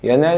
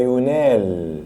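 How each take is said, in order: First: ينال read "yanaal", opening on ya; active vowels. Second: ينال read "yunaal", opening on yu; passive vowels. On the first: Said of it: "حول من مبني للمعلوم لمبني". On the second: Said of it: "لمبني المجهول لمبني معلوم". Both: Shown as a demonstration.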